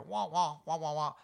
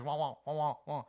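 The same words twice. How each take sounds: First: Muffled trombone-like wah wah, higher and louder; Charlie Brown adult wah-wah. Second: Charlie Brown adult wah-wah. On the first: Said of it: "you'd hear". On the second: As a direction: squawk it like the Charlie Brown teacher. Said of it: "all they're hearing is". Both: Retold or imitated.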